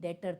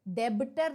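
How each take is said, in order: First: The word is said without a b sound. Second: The word is said with a b sound. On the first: The speaker calls it right. "ब silent होता है, डेटर बोलते हैं" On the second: The speaker calls it wrong. "डेबिटर नहीं"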